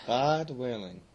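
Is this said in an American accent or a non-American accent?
American. It is said in an imitated American accent.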